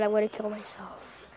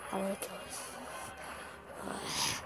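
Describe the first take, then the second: First: Low, soft, defeated grumble; exasperated mutter. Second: Slow, barely audible whisper; despairing whisper. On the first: Player annoyed by opponent, exasperated mutter. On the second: Player worn down by annoying opponent, despairing whisper. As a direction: whisper it slowly to yourself. Exasperated repeat to himself. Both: Real, not acted.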